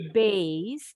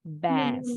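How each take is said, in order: First: Bass said like "base"; with an I glide. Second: Bass with an open "a", no glide; no I sound. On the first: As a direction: glide the vowel of bass into an I sound. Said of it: "kalau ini ada bunyi I". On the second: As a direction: keep the vowel of bass pure, as in "cat". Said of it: "nggak ada bunyi I-nya". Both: Shown as a demonstration.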